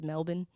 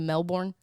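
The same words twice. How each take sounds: First: It is said in an Australian accent. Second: It is said in a non-Australian accent. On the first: "you know how Australians always say" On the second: "instead of Melbourne"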